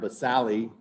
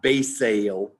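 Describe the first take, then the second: First: Every vowel is pronounced, including the final one. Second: The final vowel is left silent. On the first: The speaker calls it right. "In Latin, you pronounce all the vowels" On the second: The speaker calls it wrong. "not basale. Don't say that"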